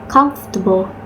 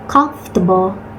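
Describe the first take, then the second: No difference in how they are said.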